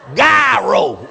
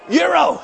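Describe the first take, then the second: First: The word begins with a hard G sound. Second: The word begins with a Y sound. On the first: "I know that thing is gyro" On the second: "But they call it Euro. They said it's silent"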